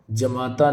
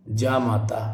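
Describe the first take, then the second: First: जमाता with a short first vowel; wrong form. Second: जामाता with a long first vowel; correct form. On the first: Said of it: "जमाता नहीं". (जमाता का "ज" छोटा बोलें) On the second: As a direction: say जामाता as "jaa-maa-taa". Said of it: "तो ये गलत होगा". (जामाता का "जा" लंबा बोलें) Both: Shown as a demonstration.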